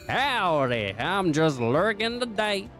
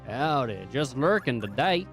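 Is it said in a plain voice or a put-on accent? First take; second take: accent; plain. First: It is said in a put-on drawling accent. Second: It is read in a plain, normal voice.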